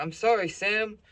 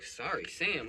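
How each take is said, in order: First: High, loud imitation of a pleading dad; apologetic dad. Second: Irritated cop echoing. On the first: Dad mistakenly calls the cop Sam, frantically apologetic. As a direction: act out a frantic apology, pitched way up. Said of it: "He's talking about". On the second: Retold or imitated. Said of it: "The cop is like".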